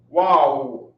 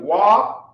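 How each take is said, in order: First: The syllables merge into one single syllable. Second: Two separate syllables are pronounced distinctly. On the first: The characters are joined by a connector. "you would drop the R sound off of the second letter" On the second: The characters have separate connectors. "you pronounce wa and you pronounce wa, pronouncing both the characters"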